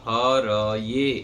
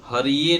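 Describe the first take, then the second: First: The second syllable is pronounced 'ra'. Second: The second syllable is pronounced 'ri'. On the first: The speaker calls it right. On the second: The speaker calls it wrong. "हरिये नहीं बोलेंगे"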